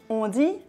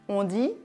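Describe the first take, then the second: No difference in how they are said.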